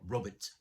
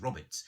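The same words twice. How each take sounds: First: It is said the modern, everyday way. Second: It is said the old-fashioned, 1950s way.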